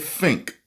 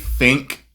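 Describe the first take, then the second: First: The word starts with an f sound. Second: The word starts with a th sound. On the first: "or do you still say think" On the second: "do you actually say think"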